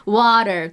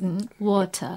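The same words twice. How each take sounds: First: "water" the American way, with a tapped t and r ending; American-accented "water"; American pronunciation. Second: Quizzical British "water", crisp t and no final r; softer British-accented "water"; British correction. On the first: Shown as a demonstration. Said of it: "とか言うと". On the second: Retold or imitated. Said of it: "って言うからね".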